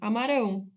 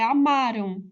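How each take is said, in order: First: The stress is on the last syllable. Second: The stress is on the second-to-last syllable. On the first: The action will happen in the future. "a sílaba mais forte é a última" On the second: The action happened in the past. "A sílaba tônica não é a última, é a penúltima"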